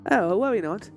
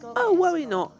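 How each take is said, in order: First: It is said in a different character voice. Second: It is said in a Hornet-like voice.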